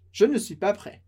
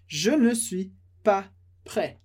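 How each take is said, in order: First: Said in the usual way. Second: Je ne suis pas prêt said slowly, each part apart; slow model. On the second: Shown as a demonstration. Teacher modeling the sentence slowly for students. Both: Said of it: "Por isso essa frase".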